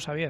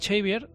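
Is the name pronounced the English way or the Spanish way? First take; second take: Spanish; English. First: The name is pronounced with Spanish sounds. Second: The name is pronounced with English sounds. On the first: This is how the speakers have always known the name. "nosotros toda la vida conocemos como Xavier" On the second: This is how the characters in the series say it. "al que llaman Xavier"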